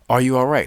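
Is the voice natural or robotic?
natural. It is said in a plain natural voice.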